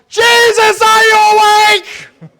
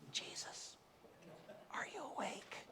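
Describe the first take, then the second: First: It is asked in a panicked voice. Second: It is asked calmly and quietly.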